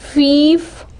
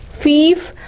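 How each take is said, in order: First: The vowel is a long ee sound. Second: The vowel is a long ee sound.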